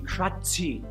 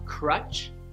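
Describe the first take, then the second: First: An extra vowel syllable follows the ch sound. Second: The word ends cleanly on the ch sound. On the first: The speaker calls it wrong. "they add an extra syllable" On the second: The speaker calls it right. "instead of uh"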